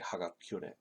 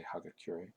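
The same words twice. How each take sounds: First: It is said with a Japanese-style r sound. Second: It is said with an English-style r sound. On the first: The speaker calls it right. "A Japanese person will say" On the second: The speaker calls it wrong. "a typical person who doesn't know how to speak Japanese will say"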